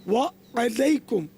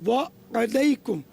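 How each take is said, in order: The two takes are said the same way.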